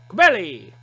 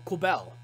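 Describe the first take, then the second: First: The final E is sounded as an extra vowel. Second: The final E is silent, with no extra vowel. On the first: The speaker calls it wrong. "you would say that extra E at the very end" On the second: The speaker calls it right. "it's just normal Quibelle"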